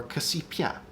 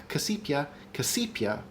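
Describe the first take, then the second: First: Casipia with the last syllable lifted; shifted stress demo. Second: Casipia with a falling end; stress demo. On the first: Host offering another stress option, casipia rising at the end. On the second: Host showing stress options, casipia falling at the end. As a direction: say casipia letting the last syllable drop away. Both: Shown as a demonstration. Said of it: "So we could do casipia".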